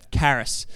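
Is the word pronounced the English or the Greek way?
English. The word is said with an English pronunciation. "The English way of saying it is charis"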